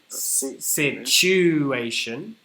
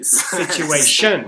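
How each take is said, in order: First: The stress is on the second syllable. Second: The stress is on the fourth syllable.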